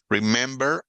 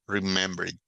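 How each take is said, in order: First: Said in the usual way. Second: Remembered, with the -ed ending and no doubled r; English past tense. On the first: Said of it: "Visit, visited". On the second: Shown as a demonstration. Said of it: "como no es remembered". (remembered con la terminación -ed)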